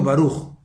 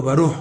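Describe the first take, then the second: First: "Baruch" as the word for blessed, ending in kh; correct Baruch. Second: "Baruch" botched at the end so it becomes another word; mispronounced Baruch. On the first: Rabbi showing how blessed is said, correct "Baruch". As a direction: say "Baruch" with a long u and a final kh. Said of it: "Baruch es bendito". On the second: Rabbi showing a meaning-changing slip, mispronounced "Baruch". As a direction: say "Baruch" wrongly, altering its ending after the u. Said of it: "entonces Baruch es otra cosa". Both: Shown as a demonstration.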